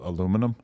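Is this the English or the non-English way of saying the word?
non-English. It is said the way people outside England say it. "instead of aluminum"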